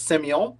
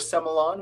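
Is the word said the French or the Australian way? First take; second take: French; Australian. First: It is said the French way. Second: It is said the Australian way.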